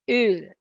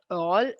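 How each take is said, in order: First: The vowel is a rounded front vowel, like 'ö'. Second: The vowel is a back vowel, like English 'all'. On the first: The speaker calls it right. "It's Öl" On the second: The speaker calls it wrong. "it's not all Öl"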